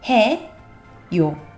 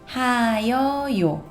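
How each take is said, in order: First: The ending is contracted into two syllables. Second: The ending is spoken as three separate syllables. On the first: This is the form used nowadays. The speaker calls it right. "la gente lo fue pronunciando cada vez más rápido y en la actualidad se pronuncia como" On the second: This is the older, uncontracted form. The speaker calls it wrong. "queda como. quedaría 하여요"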